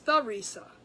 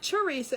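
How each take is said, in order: First: The name begins with a th sound. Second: The name begins with a plain t sound. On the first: The speaker calls it right. "it's the Risa" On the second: The speaker calls it wrong. "it's not Teresa"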